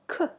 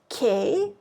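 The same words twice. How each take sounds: First: The k sound is short and clipped. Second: The k sound is longer and drawn out. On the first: The speaker calls it right. "but just again shorter, k" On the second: The speaker calls it wrong. "not k"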